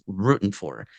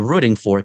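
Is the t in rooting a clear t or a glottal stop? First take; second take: glottal stop; clear t. First: The t in rooting is a glottal stop. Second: The t in rooting is a clear t.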